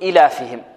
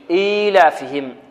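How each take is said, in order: First: The ya vowel after the hamza is dropped. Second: The ya vowel is held for two counts. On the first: The speaker calls it wrong. "بعض المبتدئين يسقطها يقول إيلافهم، وهذا خطأ" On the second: The speaker calls it right. "لابد أن نقرأها ماذا؟ إيلافهم"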